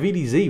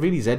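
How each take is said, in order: First: The last letter is said the American way, zee. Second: The last letter is said the British way, zed.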